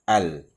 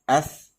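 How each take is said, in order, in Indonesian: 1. Bunyi L pada artikel al jelas diucapkan. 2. Bunyi L menyatu dengan bunyi S yang mengikutinya. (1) "Ada bunyi alif lam dia" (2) "mana lam dia tak ada bunyi pun"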